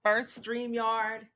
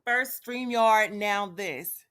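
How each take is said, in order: First: Exasperated. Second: Louder, slow and fed up; "First StreamYard" drawn out slowly and louder in real exasperation; fed-up gripe. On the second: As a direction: spell out "First StreamYard" slowly and louder, each word weighed. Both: Real, not acted. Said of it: "I'm so irritated right now".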